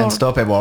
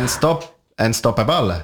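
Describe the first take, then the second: First: Unstoppable said with an English accent, /ɔstɔpɛbɔ/. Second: Unstoppable with a Spanish accent, un-stop-A-bal with every syllable sounded; restart, then say unstoppable the Spanish way, unstop-a-bal. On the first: Plugging his show title on air, says Unstoppable with a light English accent. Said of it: "mon accent espagnol et anglais est au top". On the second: Asked by cohost to say it in Spanish accent so they can laugh, mild Spanish-accented unstoppable. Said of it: "juste le mot anglais avec l'accent espagnol". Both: Shown as a demonstration.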